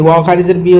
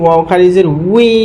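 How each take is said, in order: First: The final syllable starts with a b sound. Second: The final syllable starts with a w sound. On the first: The speaker calls it wrong. "বি হচ্ছে ভুল" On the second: The speaker calls it right. "উই পড়তে হবে"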